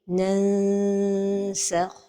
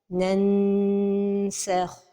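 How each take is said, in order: First: The n is partly hidden, tongue slightly apart. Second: The n is fully sounded with tongue contact. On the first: The speaker calls it right. "la prononciation correcte" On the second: The speaker calls it wrong. "toucher le palais supérieur avec le bout de la langue"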